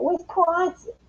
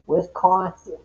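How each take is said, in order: First: Wisconsin drawn up high, mocking Wisconsin vowels; higher, sing-song Wisconsin accent impression. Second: Said in the usual way. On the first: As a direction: say Wisconsin the way a Wisconsin local would. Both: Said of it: "that's how the New Yorkers talk".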